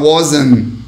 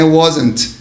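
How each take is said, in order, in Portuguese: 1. O som do T final é omitido. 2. O som do T final é claramente pronunciado. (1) "pode omitir o som do T, porque eu falo wasn't" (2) "O britânico, às vezes, ele força um pouquinho mais o T"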